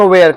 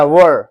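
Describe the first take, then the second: First: "where" with an open e, like "wair"; contrasting pronunciation. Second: "were" with a central vowel, like "wur"; correct pronunciation. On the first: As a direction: say "where" with the air vowel. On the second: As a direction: say "were" with rounded lips and no e. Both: Shown as a demonstration. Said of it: "इसको कहना है were".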